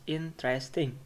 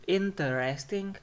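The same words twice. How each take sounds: First: Interesting in three syllables, in-tres-ting; dropped syllable. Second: Interesting in four syllables, in-ter-es-ting; full syllables. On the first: Teacher showing what it becomes, interesting as in-tres-ting. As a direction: squeeze out the er of interesting. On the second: Teacher showing the full form, interesting unreduced. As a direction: sound the er in interesting. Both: Shown as a demonstration. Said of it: "becomes interesting".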